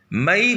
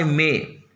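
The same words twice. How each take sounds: First: First मई in two vowels, "ma-ee"; Hindi pronunciation. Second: मई as one syllable, "may"; English pronunciation. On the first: Teacher contrasts Hindi month with English, Hindi pronunciation. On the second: Teacher gives the English month after spelling it, English pronunciation. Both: Shown as a demonstration. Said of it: "मई को मई".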